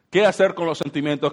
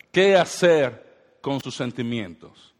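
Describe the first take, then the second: First: Said in the usual way. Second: Drawn out, every word weighted; slow emphasis. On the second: Shown as a demonstration. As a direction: spell the question out slowly.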